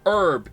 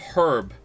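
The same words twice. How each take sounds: First: The word starts without an h sound. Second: The word starts with an h sound. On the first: The speaker calls it wrong. "saying herb" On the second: The speaker calls it right. "instead of herb"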